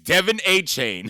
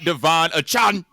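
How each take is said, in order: First: The last syllable rhymes with 'rain'. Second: The last syllable rhymes with 'on'. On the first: The speaker calls it right. "It's Devin A. Chain" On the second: The speaker calls it wrong. "not Devon Achan"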